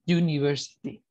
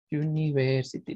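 First: University with a clear yoo at the start; English yoo sound. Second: Said in the usual way. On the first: Shown as a demonstration. Teacher showing the class the yoo sound in University. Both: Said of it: "Así".

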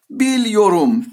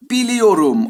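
First: Biliyorum contracted to "bilyorum", i dropped; wrong form Biliyorum. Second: Full four-syllable Biliyorum; right form Biliyorum. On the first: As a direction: say Biliyorum squeezed into three syllables. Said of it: "diye söylenir mi". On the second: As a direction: demo of the correct Biliyorum. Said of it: "Araya yine neyi getirdim". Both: Shown as a demonstration.

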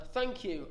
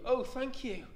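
First: First thanks from the witch, kept gentle; simple heartfelt thank you; grateful thanks. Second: Higher, overflowing oh thank you; the relieved witch gushing to her rescuers; grateful cry. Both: Acted. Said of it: "the grateful witch cried".

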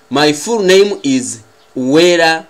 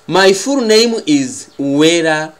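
Both takes have the same delivery.

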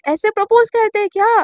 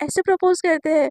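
First: "propose" said louder and higher the second time; repeated louder. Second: Said in the usual way. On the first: Retold or imitated. Misha repeating her question louder to Shaili. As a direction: repeat it louder for a listener who missed it.

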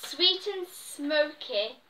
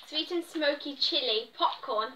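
First: Drawn-out, careful reading; slow reading. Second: Said in the usual way. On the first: Shown as a demonstration. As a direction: read it out slowly, word by word.

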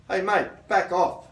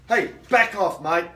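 First: Firm and clear, a bit louder; firm, assertive. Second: Louder, forceful warning; stronger, assertive. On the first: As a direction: tell them calmly but firmly to back off. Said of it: "say it loud enough so as everyone". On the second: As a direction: raise your voice and make them back off. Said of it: "start to be a bit stronger". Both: Shown as a demonstration.

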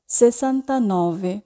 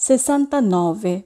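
The two takes are said the same way.

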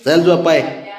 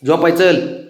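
First: Breathy laughing whisper, slow. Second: Said in the usual way. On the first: Real, not acted. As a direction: laugh under the breath while coaxing. Laughing while coaxing child. (हसत हसत कुजबुजत झोपायला बोलावणे)

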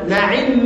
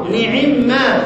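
First: نعم said quickly in the ordinary way; first reading. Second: نعم stretched very slowly, the vowel held long; drawn-out reading. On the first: Teacher contrasting two readings of نعم, the first said plain. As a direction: say نعم lightly, vowel barely held. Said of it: "إحنا بنقول إيه؟ سواء قلنا نعم أو نعم". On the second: Teacher contrasting two readings of نعم, the second drawn out slowly. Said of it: "سواء قلنا نعم أو نعم". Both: Shown as a demonstration.

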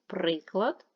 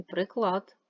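First: Приклад with stressed, long При-; stress on first syllable. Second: Приклад with stressed, long -клад; stress on second syllable. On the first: Teacher comparing two words, first-syllable stress on Приклад. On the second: Teacher comparing two words, second-syllable stress on приклад. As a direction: hit the last syllable of приклад. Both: Shown as a demonstration. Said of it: "Наголос може змінювати значення".

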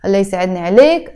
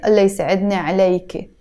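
First: Fast phrase, عليك closed as "aleyk"; masculine ending. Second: Fast phrase, عليك opened as "aleyke"; feminine ending. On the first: Teacher addressing guy friends, masculine "aleyk" ending. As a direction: stop عليك on the k. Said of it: "If I'm talking to one of my guy friends". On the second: Teacher showing how she is addressed, feminine "aleyke" ending. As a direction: add a final e to عليك. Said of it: "that's because he's talking to me". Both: Shown as a demonstration.

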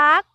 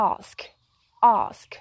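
First: "Ask" drawn out high with a Thai accent; Thai-style "Ask". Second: Short, soft "ask" with the final sk sounded; English-style "ask". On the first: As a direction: say "Ask" as a Thai loanword, ending softened. ("Ask" สำเนียงไทย เสียงสูง ลากยาว) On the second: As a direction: model "ask" quietly in English, ending in sk. ("ask" แบบอังกฤษ เบาๆ มีเสียง sk ท้าย) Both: Shown as a demonstration. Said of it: "เราสิออกเสียงถูกกันกี่ค".

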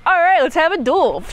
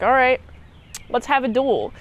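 First: Higher, louder, keen echo; a knight repeating it, raring to go; eager challenger. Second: Said in the usual way. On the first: Retold or imitated. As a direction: throw it back, itching for a fight. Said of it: "this guy's like". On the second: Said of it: "King Arthur's like".

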